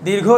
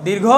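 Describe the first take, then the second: No difference in how they are said.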